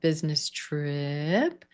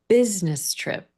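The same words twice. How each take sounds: First: The pitch rises at the end. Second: The pitch falls at the end. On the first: The speaker calls it wrong. "you have like a non-final rising intonation" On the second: The speaker calls it right. "let's practice falling on that intonation instead"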